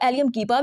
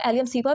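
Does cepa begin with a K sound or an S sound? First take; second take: K sound; S sound. First: Cepa begins with a hard K sound. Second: Cepa begins with a soft S sound.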